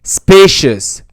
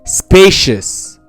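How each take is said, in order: The two takes are said the same way.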